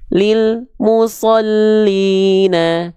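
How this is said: The sound cuts off between lil and mu. The speaker calls it wrong. "banyak yang melafalkan lil musallina"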